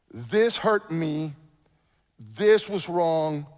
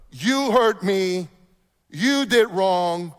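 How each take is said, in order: First: "This hurt me. This was wrong." said very slowly and evenly; calm I-statement. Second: "You hurt me. You did wrong." very slowly, with "You" pressed hard; accusing you-statement. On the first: Pastor showing the right way to confront, slow and measured. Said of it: "Instead of". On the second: Pastor showing the wrong way to confront, slow and accusing. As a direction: point the finger, slow and pointed. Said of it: "You get the difference?". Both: Shown as a demonstration.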